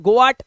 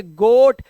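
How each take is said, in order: First: गोआट with both vowels sounded, "go-aat"; mistaken two-vowel reading. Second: गोट as one loud syllable, "goat"; silent A reading. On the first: Teacher mimics students' mistake, गोआट as "go-aat". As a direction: pronounce the A in गोआट after the O. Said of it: "गोआट पोआट कुछ नहीं है". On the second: Teacher corrects students, loud गोट with silent A. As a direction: punch गोट with long O and no A. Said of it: "ये ए silent है". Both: Shown as a demonstration.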